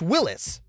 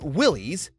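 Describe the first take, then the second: First: The last syllable sounds like 'lis'. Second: The last syllable sounds like 'lees'. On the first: The speaker calls it right. "That's how its founder, John North Willis, pronounced it" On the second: The speaker calls it wrong. "Here's something you all pretty much have wrong"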